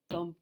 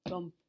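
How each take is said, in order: Both takes have the same delivery.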